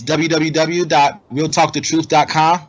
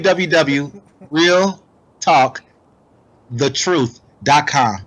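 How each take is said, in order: First: The address is spoken at a normal, quicker pace. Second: The address is spoken at a slower, deliberate pace.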